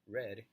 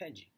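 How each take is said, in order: First: It is said with an English pronunciation. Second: It is said with a Portuguese-style pronunciation. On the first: The speaker calls it right. "this is how red would look like in English pronunciation" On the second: The speaker calls it wrong. "this is how I would pronounce it"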